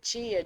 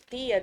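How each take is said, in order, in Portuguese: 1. O t é africado antes de i. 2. O t é uma oclusiva simples antes de i. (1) "em São Paulo a norma já é tia" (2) "paraibanos e alagoanos, então normalmente é tia, dia, né, tem mais as oclusivas"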